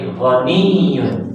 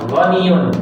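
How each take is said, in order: First: The y sound is doubled and pressed. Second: The y sound is short and unstressed. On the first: The speaker calls it right. "tapi ghaniyun" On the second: The speaker calls it wrong. "Bukan ghaniyun"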